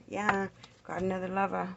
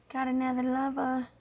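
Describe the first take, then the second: First: Said in the usual way. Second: "Got another lover" pitched higher; higher incredulous echo; higher emphatic repeat. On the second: Real, not acted. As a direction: say it again, higher, stunned. Repeats a tarot finding.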